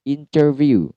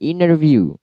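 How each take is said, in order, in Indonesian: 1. Bunyi t yang jelas muncul setelah n. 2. Bunyi t setelah n dihilangkan. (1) "interview itu yang asli" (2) "Terkadang T-nya hilang"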